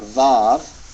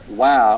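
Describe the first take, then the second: First: The name begins with a V sound. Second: The name begins with a W sound. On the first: This is the modern Hebrew form. "call it Vav and pronounce it like a V" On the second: This is the traditional form. "call it Wow and pronounce it like a W"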